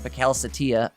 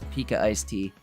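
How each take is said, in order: First: The name runs together as one blended word. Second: The name is split into separate clear words. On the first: The speaker calls it wrong. "as I was pronouncing it wrong last week" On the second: The speaker calls it right. "this is Pika Iced Tea"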